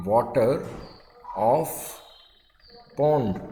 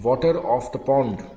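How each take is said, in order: First: "water", "of", "pond" each alone with long pauses; word by word dictation. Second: Whole phrase at slow dictation speed. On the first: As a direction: dictate one word at a time. (हर शब्द अलग अलग रुककर) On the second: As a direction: read it slowly once through. (धीमी गति से पूरा वाक्यांश) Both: Shown as a demonstration. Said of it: "कैसे लिखेंगे".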